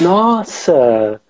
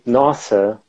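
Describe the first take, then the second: First: The word is said lively, with exaggerated expression. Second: The word is said flat, without expression. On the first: The speaker calls it right. "of course, I'm exaggerating a little bit" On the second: The speaker calls it wrong. "you can't just say nossa"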